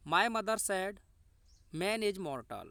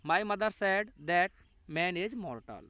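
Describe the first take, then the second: First: Said in the usual way. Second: Slow dictation. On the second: Shown as a demonstration. Teacher dictates the indirect speech answer, slow and clear. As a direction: answer read slowly, "that" set in clearly.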